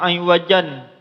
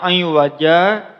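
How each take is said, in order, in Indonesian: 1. Kata ini berakhir dengan vokal pendek lalu n. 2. Kata ini berakhir dengan vokal panjang. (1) "Kalau iwajan itu dibacanya pendek" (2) "bisa dibaca iwaja dipanjangkan"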